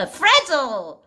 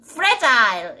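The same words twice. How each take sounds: First: Fragile with a short, reduced second syllable, like FRAJ-ul; American pronunciation. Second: Fragile with a full "eye" in the second syllable, FRAJ-ile; British pronunciation. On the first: Teacher giving the American version of a word, fragile as "FRAJ-ul". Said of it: "미국식 영어는". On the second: Teacher giving the British version of a word, fragile as "FRAJ-ile". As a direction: say fragile the British way, rhyming its ending with "mile". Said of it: "영국식은 fragile 이렇게 하던데요". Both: Shown as a demonstration.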